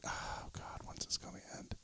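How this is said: It is whispered very quietly.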